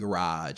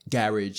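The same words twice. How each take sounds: First: Garage is said with a non-British pronunciation. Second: Garage is said with a British pronunciation. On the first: "instead of garage" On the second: "a British person saying garage"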